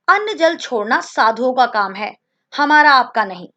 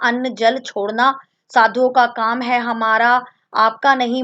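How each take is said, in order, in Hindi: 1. शब्दों में विराम-चिह्नों पर ठहराव है। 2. शब्द बिना विराम-ठहराव के एक-दूसरे में चलते जाते हैं। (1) "विराम चिन्हों के प्रयोग करने के बाद" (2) "अगर हम इसे अ, पढ़ते हैं और कहीं कोई विराम चिन्ह नहीं है"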